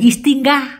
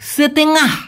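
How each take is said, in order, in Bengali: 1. শব্দটি 'is' ধ্বনি দিয়ে শুরু হয়। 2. শব্দটি 'se' ধ্বনি দিয়ে শুরু হয়। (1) "অনেকে এই সেতেঙ্গা এটাকে বলে ইস্তিঙ্গা" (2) "এটা সঠিক উচ্চারণ করেন সেতেঙ্গা"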